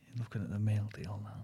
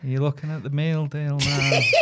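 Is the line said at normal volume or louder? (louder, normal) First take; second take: normal; louder. First: It is said at a normal volume. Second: It is said at a louder volume.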